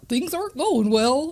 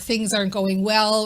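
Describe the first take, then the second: First: It is said in a silly put-on voice. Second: It is said in a normal speaking voice.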